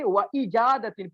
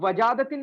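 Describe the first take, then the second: First: The second word starts with a separate glottal break. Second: The words run together without a glottal break. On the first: The speaker calls it right. "पूरा क्लियर करके हमज़ा क़तई को" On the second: The speaker calls it wrong. "वजादतिन नहीं पढ़ते, मतलब मिला के नहीं पढ़ते"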